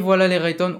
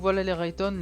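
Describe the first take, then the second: First: The voice sounds clear and open. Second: The voice sounds muffled and dull. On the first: The speaker calls it right. "on passe sur le micro Maono" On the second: The speaker calls it wrong. "le son est déjà très étouffé"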